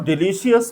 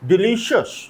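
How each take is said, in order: First: The ending is not said as 'shus'. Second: The ending is said as 'shus'. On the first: The speaker calls it wrong. "इसको डिलीशियस नहीं बोलते" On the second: The speaker calls it right. "ये शस pronounce होता है"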